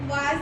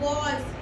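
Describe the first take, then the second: First: The vowel is an open unrounded 'ah'. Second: The vowel is a rounded 'aw'. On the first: The speaker calls it wrong. "वाज नहीं" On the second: The speaker calls it right. "वॉज होता है"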